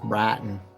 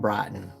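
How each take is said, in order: First: It is said in a Texas accent. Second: It is said without a Texas accent.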